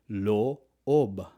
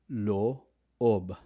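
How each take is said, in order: First: The vowel is two separate 'o' sounds. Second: The vowel is two separate 'o' sounds.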